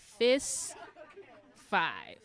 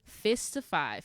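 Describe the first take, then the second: First: Teacher leading a fist-to-five check; sing-song contrast. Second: Said in the usual way. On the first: Shown as a demonstration.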